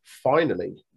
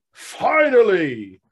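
First: Said in the usual way. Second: Slow, stretched finally, louder and higher; dramatic drawn-out finally. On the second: Acted.

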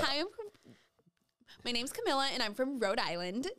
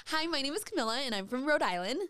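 First: A higher, pageant-style self introduction; a touch of beauty pageant Rhode Island; pageant stage voice. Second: Higher pageant-style Rhode Island voice; chirpy Rhode Island pageant intro; Rebecca voice. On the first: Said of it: "like you're on a fucking pageant stage". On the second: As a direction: introduce yourself like a pageant contestant. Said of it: "say it in the Rebecca voice". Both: Shown as a demonstration.

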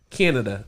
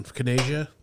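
First: Said in the usual way. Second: "Canada" said as kuh-NAY-zhuh; mock mispronunciation. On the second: Host unsure of the country's name, "Canada" as kuh-NAY-zhuh. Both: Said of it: "it's the country north of us".

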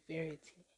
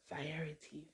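First: "variety" said VAIR-ih-tee, very softly; hushed, puzzled "variety", like "verity"; unsure pronunciation. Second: "variety" said vuh-RYE-uh-tee, very softly; hushed, puzzled "variety" with an eye vowel; unsure pronunciation. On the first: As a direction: test "variety" under the breath as VAIR-ih-tee. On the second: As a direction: test "variety" under the breath, stressed RYE. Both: Real, not acted. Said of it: "I don't know how to say".

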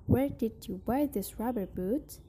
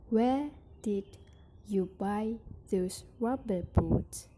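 First: "Where did you buy those rubber boots?" in one breath, stress on "buy"; smooth single phrase. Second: "where did" then a pause, then "you buy those rubber boots?"; phrased in chunks. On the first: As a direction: join it all in one flowing question. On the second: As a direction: break the question after "where did". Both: Shown as a demonstration. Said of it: "phrasing and intonation".

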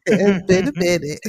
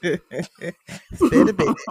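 First: Said in the usual way. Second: Said through a laugh; chuckling while saying it. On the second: Real, not acted. Repeated line, laughing first.

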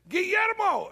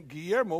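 First: High, drawn-out street call; imitating a man calling out GUILLERMO; hollered name. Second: Said in the usual way. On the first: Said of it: "a guy hollered".

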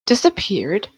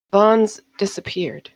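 First: Questioning exclamation with a rising end; mild exclamation. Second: Understated worry, slow falling statement; mildly nervous admission. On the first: Tessitat reacting to news of the missing dancer, mildly startled. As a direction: echo it back in mild disbelief. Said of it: "exclaimed Tessitat and frowned". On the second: Eva confessing to her patron that Vaughn is gone, mildly nervous. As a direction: break bad news slowly, a touch reluctantly. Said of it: "in a nervous gesture". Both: A narrator's reading.

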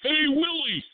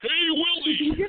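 First: High squeaky alien voice; Alf voice. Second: High, slow squeaky alien voice; Alf voice. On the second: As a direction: stretch it out like Alf. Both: Retold or imitated. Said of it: "That's my elf impression".

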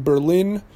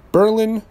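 First: Said in the usual way. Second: "Berlin" punched higher and louder on the first syllable; emphatic local Berlin. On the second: Real, not acted. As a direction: correct it firmly to BER-lin, stressing "Berlin" up front. Corrects city to local New Hampshire name.

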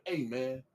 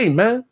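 First: Mild retold greeting. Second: High, loud "hey, man"; imitated aggressive approach. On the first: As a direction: toss it off quietly, imitating him. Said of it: "That's it?". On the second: Coworker acting out the man ready for war, aggressive. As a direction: push it up like squaring up. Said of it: "his face was more aggressive".

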